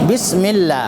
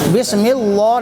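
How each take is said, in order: First: The L in 'llah' is light and thin. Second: The L in 'llah' is heavy and thick. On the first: The speaker calls it right. "कसरा हो तो पतला पतला होगा जैसे बिस्मिल्लाह" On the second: The speaker calls it wrong. "नहीं"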